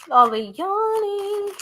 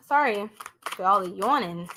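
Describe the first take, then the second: First: High, slow words stretched by a yawn; yawning through the repeat. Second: Said in the usual way. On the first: Real, not acted. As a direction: let the yawn drag All the yawning out high.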